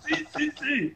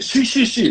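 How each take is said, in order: First: Very high, soft yeses through laughter; laughing mock yes. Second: High, louder, eager yeses. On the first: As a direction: laugh while mimicking the eager guest. Retelling the eager yes, laughing. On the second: Retold or imitated. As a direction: snap it back like a thrilled guest. Actor eagerly accepts invitation upstairs.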